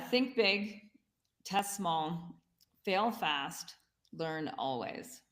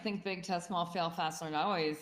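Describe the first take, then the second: First: It is said slowly and deliberately. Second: It is said at normal conversational speed.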